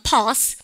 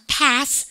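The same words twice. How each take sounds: First: "pass" with a long back ah; British A. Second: "pass" with the flat ae of cat; American A. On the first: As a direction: open "pass" to pahs. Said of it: "영국 애들 발음과". ("pass"를 파-스로) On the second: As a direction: say "pass" as paes. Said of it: "미국이죠?". ("pass"를 패스로) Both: Shown as a demonstration.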